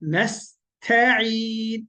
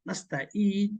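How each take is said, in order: First: The middle consonant is squeezed in the throat. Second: The middle consonant is a plain glottal stop. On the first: The word means seeking help. The speaker calls it right. "এইভাবে গলাতে দি- বলবেন আর গলাটা চিপ দিবেন" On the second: The word becomes meaningless. The speaker calls it wrong. "কেউ যদি বলে নাস্তা ইন হামজা"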